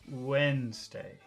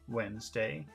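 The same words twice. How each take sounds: First: The accented syllable is drawn out longer. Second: The accented syllable is short and plain. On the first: "Intonation Wednesday... You just make the accented syllable longer" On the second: "Normal Wednesday"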